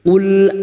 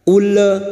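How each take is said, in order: First: The final l stops cleanly without a bounce. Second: The final l bounces into an extra vowel. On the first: The speaker calls it right. "cukup masuk ul" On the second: The speaker calls it wrong. "Jangan dibaca ule"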